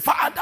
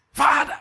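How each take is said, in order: First: High, loud shouted Father; mock loud prayer cry. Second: High, loud hammed-up cry of Father; imitating a shouted prayer. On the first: Young man shouting at God in prayer, hammed-up yell. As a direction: yell the word like a frantic prayer. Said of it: "He said". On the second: Preacher mocking a young man's shouted prayer, loud yell. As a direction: bellow it like a desperate prayer. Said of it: "he was shouting".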